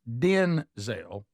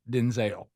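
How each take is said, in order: First: The stress is on the first syllable. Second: The stress is on the second syllable. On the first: The speaker calls it right. "The emphasis should be on Den" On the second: The speaker calls it wrong. "He said the emphasis on Zale is wrong"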